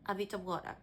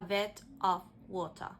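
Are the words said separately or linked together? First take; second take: linked; separately. First: The words are reduced and linked with schwa. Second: The words are said fully and separately.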